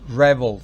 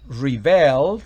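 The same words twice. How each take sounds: First: The stress is on the first syllable. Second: The stress is on the second syllable. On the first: It is a noun meaning a revolter. "significa rebelde" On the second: It is a verb meaning to revolt. "significa rebelarse"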